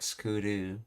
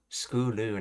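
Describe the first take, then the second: First: The second syllable starts with a D sound. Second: The second syllable starts with an L sound. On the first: The speaker calls it wrong. "not skoodoo" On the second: The speaker calls it right. "I think he's saying school, schooloo"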